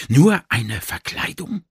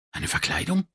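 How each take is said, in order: First: Slow, questioning stress on "Nur"; gedehnte Frage. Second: Hushed, higher-pitched question; leise Frage. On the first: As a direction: draw out "Nur" and rise at the end. Question repeated with dawning doubt. ("Nur" betont, langsam fragend) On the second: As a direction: breathe the question in sudden doubt. Stunned inner question in story. (leise, verblüfft gefragt) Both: A narrator's reading.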